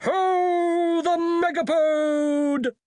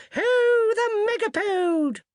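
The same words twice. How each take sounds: First: Very high, drawn-out hunting call; hunting cry. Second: Very high, louder hunting hollo; wizard's yell. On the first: Wizard in the distance calling the hunt, high and drawn out. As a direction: hollo it slowly across the corridors. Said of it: "followed by a cry of". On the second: Wizard riding piggyback yelling the hunt, very high and loud. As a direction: hollo it out as the chase resumes. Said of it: "a wizard yelled". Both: Acted.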